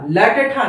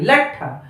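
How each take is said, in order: First: The half letter is said as a full syllable. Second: The half letter joins the next consonant. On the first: The speaker calls it wrong. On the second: The speaker calls it right.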